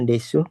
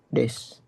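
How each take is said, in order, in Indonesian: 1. Huruf u di akhir diucapkan penuh. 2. Huruf u di akhir dihilangkan, berakhir di s. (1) "Bukan desu" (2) "tapi dia des"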